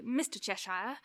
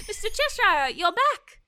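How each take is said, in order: First: Respectful. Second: High, louder, laughing with relief; delighted laugh. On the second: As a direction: greet him with a happy laugh. Laughs as the cat reappears. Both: Acted.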